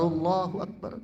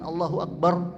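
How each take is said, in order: First: Allahu and Akbar are joined without a break. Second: Allahu and Akbar are cut apart with a break. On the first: The speaker calls it right. "Yang pas itu Allahu Akbar" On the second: The speaker calls it wrong. "Bukan Allahu Akbar. Allah nggak dipotong"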